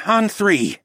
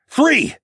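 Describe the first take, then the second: First: Measured, steady voice; calm agreement. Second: "three!" shouted high and loud. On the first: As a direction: confirm the plan coolly. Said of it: "Tawa agreed". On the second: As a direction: yell "three!" as the signal. End of the countdown. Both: A narrator's reading.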